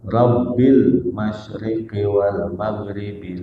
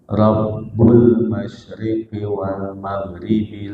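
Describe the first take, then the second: First: The first word ends in an 'i' vowel. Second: The first word ends in a 'u' vowel. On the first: It stands in apposition to 'your Lord'. "Boleh dibaca Rabbil" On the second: It is the predicate of an omitted subject. "boleh dibaca Rabbu"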